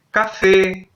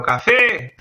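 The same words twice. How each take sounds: First: Said in the usual way. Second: Café with a high, called-out fé; café, final syllable pitched up and stretched; shouted stressed syllable. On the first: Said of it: "Entonces yo voy a tener". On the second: Shown as a demonstration. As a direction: call out the last syllable of café. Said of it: "puedo decir la palabra más alto".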